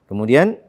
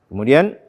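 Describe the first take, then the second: No difference in how they are said.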